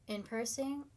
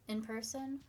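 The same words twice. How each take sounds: The two takes are said the same way.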